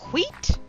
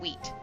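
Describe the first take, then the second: First: The word is said in an exaggerated, dramatic way. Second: The word is said in a plain, ordinary way. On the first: "I started being dramatic and saying" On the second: "I used to say just wheat"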